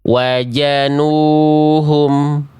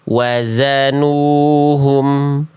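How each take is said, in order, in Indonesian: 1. Huruf kedua adalah bunyi 'j'. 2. Huruf kedua adalah bunyi 'z' yang mendesis. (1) "jangan sampai dibaca begini" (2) "dibaca berdesis mengalirkan su suara"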